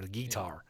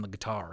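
First: "guitar" said as GEE-tar; "guitar" the country way, GEE-tar. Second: Said in the usual way. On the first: Shown as a demonstration. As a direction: stress the first syllable of "guitar", as GEE. Country pronunciation of guitar, second take.

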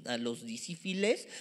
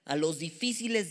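First: "difíciles" slipped into "disífiles", middle consonants swapped; tongue-slip mispronunciation. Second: Said in the usual way. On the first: Real, not acted. Preacher stumbling over a word while reading scripture, mispronounced. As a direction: say "difíciles" as "disífiles", f and s trading places. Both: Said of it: "que es mucho más cañón que difíciles".

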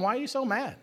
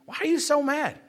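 First: Soft, much softer, caring inquiry; gentle question. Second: Amused, teasing question through a laugh; chuckling repeat. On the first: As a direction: ask it tenderly, no blame. The Lord gently questions him. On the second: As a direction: let the laugh carry the words. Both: Acted.

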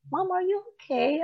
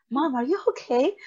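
First: Put-on much higher, childlike voice; innocent kids. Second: Put-on a higher voice for the worried boys; worried kids. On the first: Boys look up at mom leaving the bathroom, innocent childlike concern. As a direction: ask it like an innocent little boy. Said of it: "innocent face looking at me". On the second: Sons at the bathroom door ask mom, lightly voiced worried child. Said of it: "knock on the door".

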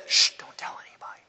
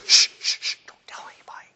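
First: Fast whispered shush; hushing whisper. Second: Fast whispered hush. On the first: Jesus again hushing the crowd, fast whisper. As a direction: hush them, keep the secret. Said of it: "And then he says". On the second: Jesus hushing the crowd, fast whisper. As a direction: shush them like a secret. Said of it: "And Jesus goes". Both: Retold or imitated.

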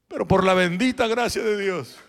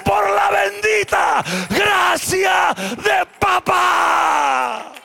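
First: Said in the usual way. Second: Por la bendita gracia de papá, slow, much louder and higher; shouted repeat. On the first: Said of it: "Dije, por la bendita, vuelvo a decir". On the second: Shown as a demonstration. Pastor repeats the phrase to the congregation, slow, loud and high. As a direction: stretch it out and shout it to the rafters. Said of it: "vuelvo a decir".

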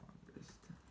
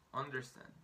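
First: Breathy whispered echo of "Understand"; hushed repetition of "Understand". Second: Said in the usual way. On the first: Shown as a demonstration. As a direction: whisper "Understand" back softly. Whispered echo of model word.

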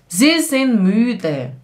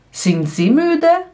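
First: "Sie sind müde" slow, falling at the end; statement tune. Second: "Sind sie müde" rising high on "müde"; question tune. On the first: Teacher modelling the statement for learners, slow falling "müde". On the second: Teacher turning the statement into a question, rising "müde". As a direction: ask "Sind sie müde" slowly, lifting the last word. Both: Shown as a demonstration.

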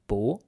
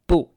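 First: 不 with a rising tone; second tone. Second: 不 with a short falling tone; fourth tone. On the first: Teacher showing how 不 changes before 是, second tone. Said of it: "becomes 不 in the second tone". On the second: Teacher giving the normal form of 不, fourth tone. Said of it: "normally pronounced in that fourth tone". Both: Shown as a demonstration.

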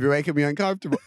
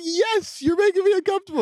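First: Said in the usual way. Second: Very high falsetto retort; hammed-up squeaky reply; mock exasperation. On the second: Exasperated reply mimicking the silly accent.

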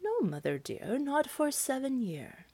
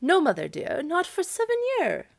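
First: Fib to the witch softly and calmly; quiet, lightly voiced tree answering the witch; apple tree answering. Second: High, polite cow voice, rising on seven; lightly voiced cow answering politely. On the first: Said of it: "The apple tree answered". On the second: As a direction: fib to the witch sweetly as the cow. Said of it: "she just said politely".

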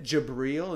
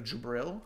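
First: Jabril with a long "ee" in the second syllable; imitated mispronunciation. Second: Jabril with a short "i" in the second syllable; corrected pronunciation. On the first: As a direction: say Jabril as "juh-BREEL". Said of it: "the way you said it". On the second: Shown as a demonstration. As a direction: say Jabril as "juh-BRILL". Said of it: "instead of Jabril".

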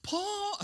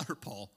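First: High, sharp "Paul"; slip of name. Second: Said in the usual way. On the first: Shown as a demonstration.

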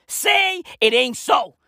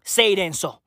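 First: Slow, stretched-out plea; slowly wailed repeat of the line; drawn-out exclamation. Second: Said in the usual way. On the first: Acted. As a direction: draw each word right out.

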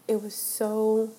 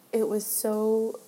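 The two takes are said the same way.

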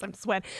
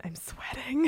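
First: Said in the usual way. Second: Whispered "I'm sweating" like the meme; breathy whisper of a famous meme line; Rick Grimes. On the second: Retold or imitated. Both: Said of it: "That Rick Grimes meme".

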